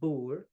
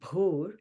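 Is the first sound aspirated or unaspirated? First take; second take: unaspirated; aspirated. First: The b is plain, without a puff of breath. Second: The b is aspirated with a puff of breath. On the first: "it's different from bhur" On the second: "So you want to make it bhur"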